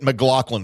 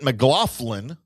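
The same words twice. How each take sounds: First: The middle of the name has no F sound. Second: The middle of the name has an F sound.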